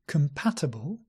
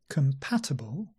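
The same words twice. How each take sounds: The two takes are said the same way.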